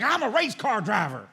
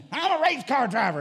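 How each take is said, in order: First: Slow, drawn-out Southern boast, a bit louder. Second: Higher, louder Southern boast. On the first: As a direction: brag like a Southern good ol' boy, slowly. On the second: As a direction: puff up the Southern brag even more. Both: Retold or imitated. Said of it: "he was a Southerner to the core".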